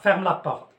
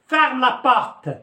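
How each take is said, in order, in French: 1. Ça se dit calmement, comme un conseil doux. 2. Ça se dit fermement, comme un ordre sec. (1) "c'est un conseil, نصيحة" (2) "كتولي جملة أمرية، كنعطي أمر، ان اوردر"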